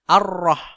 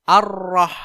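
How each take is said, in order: The two takes are said the same way.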